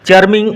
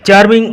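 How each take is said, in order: No difference in how they are said.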